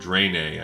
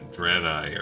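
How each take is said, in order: First: The first syllable is said as 'dre'. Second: The first syllable is said as 'dra'. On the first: The speaker calls it wrong. "I used to call them Draenei, I think, and I'm pretty dang sure that's flat out wrong" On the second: The speaker calls it right. "it's definitely Dra, Dra instead of Dre"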